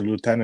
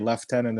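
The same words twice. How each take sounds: First: It is said the American way, starting with 'loo'. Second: It is said the British way, starting with 'left'. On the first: "they say lieutenant in U S" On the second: "you guys say lieutenant"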